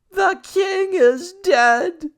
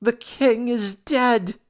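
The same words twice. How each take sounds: First: Very high, loud, slow scream; shrieking girl. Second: High, slow panicked shriek; screaming girl. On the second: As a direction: scream the news in horror. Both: A narrator's reading. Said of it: "A girl screaming and then shouting".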